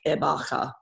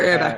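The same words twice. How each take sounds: First: The name is said with a fancy German pronunciation. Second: The name is said with a plain Australian pronunciation. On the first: This is how people in Germany say it. "they pronounce it way more fancy in Germany" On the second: This is how people in Australia say it. "in Australia, you can't pronounce something like that"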